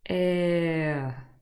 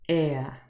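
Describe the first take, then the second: First: It is said slowly, gliding between vowels. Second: It is said quickly, as one smooth vowel. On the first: "We go from e to uh" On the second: "we say it naturally and a little bit faster"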